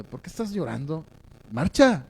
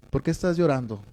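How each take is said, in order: First: Hushed mock scolding, then a pitched-up order; lightly acted exasperated complaint, kept soft; mock reproach. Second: Softer, gently falling question; lightly acted comforting father; tender fatherly concern. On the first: God who comes to reproach and complain, mildly scolding. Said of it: "te reproche y te reclame". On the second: God asking a crying Moses as a father would, gently concerned. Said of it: "así lo veo porque ese es el padre".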